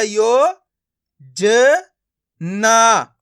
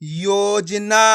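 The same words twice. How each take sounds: First: यो, ज, ना each sounded alone; syllable by syllable. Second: योजना very slow but joined; blended word. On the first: Teacher breaking a word up for learners, syllable by syllable. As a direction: leave gaps between यो, ज and ना. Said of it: "एक एक अक्षर का उच्चारण करके". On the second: Teacher showing learners the joined result, blended word. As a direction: stretch योजना as one word. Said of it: "आपस में मिला के पढ़ देना है". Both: Shown as a demonstration.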